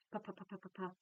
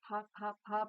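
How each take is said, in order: First: Rapid-fire "puff, puff" drill; quick, light "puff" syllables fired off; fast repetition. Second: Said in the usual way. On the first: Shown as a demonstration. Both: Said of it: "but as fast as you can".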